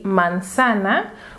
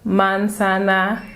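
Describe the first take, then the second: First: The stress falls on the second syllable. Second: Every syllable gets equal, robot-like stress. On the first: The speaker calls it right. "el énfasis que le vamos a dar está en la segunda sílaba" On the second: The speaker calls it wrong. "Tampoco le damos el mismo énfasis a cada sílaba, como si fuéramos robots"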